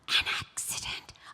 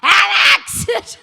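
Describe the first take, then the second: First: It is said in a flatter, calmer way. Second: It is said as a loud, sudden exclamation.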